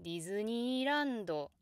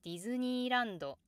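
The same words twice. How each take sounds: First: Japanese Disneyland climbing gradually to a late peak, then falling; misleading gradual rise. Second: Japanese Disneyland rising at once, held level high, then stepping down; natural standard pitch. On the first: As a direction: creep slowly upward through Disneyland before dropping. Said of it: "could lead to pronunciation like". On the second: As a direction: jump up early in Disneyland and stay flat until the drop. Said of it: "it's more natural to say". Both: Shown as a demonstration.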